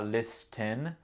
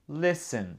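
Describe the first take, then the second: First: The T in the middle is sounded. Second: The T in the middle is silent. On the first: The speaker calls it wrong. "C'est pas listen" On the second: The speaker calls it right. "le T n'est pas prononcé. Non, listen to me"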